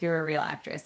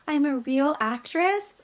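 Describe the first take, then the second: First: Settled, falling statement in a normal pitch; matter-of-fact confirmation. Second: High, slow wondering question; awed disbelief. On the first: Casting director answers the stunned actress, simply confirming. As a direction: confirm it simply, without the question. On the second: Actress hears she booked the series, awed disbelief. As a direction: rise high on it as if unable to believe it. Stunned disbelief at booking news. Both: Retold or imitated.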